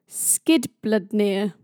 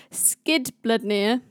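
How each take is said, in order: First: Skidbladnir said slowly, carefully, syllable by syllable. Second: Skidbladnir sounded out slowly, syllable by syllable, rising at the end. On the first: Storyteller tackling a hard Norse name, slow and careful. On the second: Storyteller retrying a hard Norse name, slow and careful. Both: Shown as a demonstration. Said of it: "Why am I doing this to myself".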